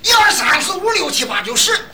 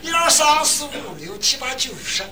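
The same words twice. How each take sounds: First: The numbers are counted in a loud Shandong accent. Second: The numbers are counted in a soft Shanxi accent.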